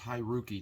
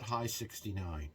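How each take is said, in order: First: It is read as one three-syllable name. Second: It is read as the word high plus sixty-nine. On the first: The speaker calls it right. "It is Hiroki" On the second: The speaker calls it wrong. "It's not High sixty-nine"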